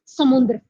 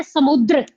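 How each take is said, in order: First: "समुद्र" with an added nasal n, sa-mun-dra; wrong samundra. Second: "समुद्र" with no nasal, sa-mud-ra; correct samudra. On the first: Teacher shows students the wrong form, "समुद्र" nasalised as samundra. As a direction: put an n before the d in "समुद्र". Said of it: "ना कि". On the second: Teacher models the right word for students, "समुद्र" without any n sound. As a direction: say "समुद्र" cleanly, u straight into d-r. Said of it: "तो वो क्या होता है?". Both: Shown as a demonstration.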